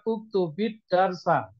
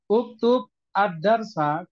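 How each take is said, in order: First: The words are joined by a linking 'i' sound. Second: The words are said separately without a linking vowel.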